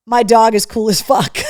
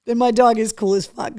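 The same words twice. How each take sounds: First: Loud gleeful read of the sock text; shouted with delight. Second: Said in the usual way. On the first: Real, not acted. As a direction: belt out the slogan. Reading socks aloud, shouting.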